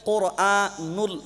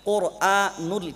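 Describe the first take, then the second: The two takes are said the same way.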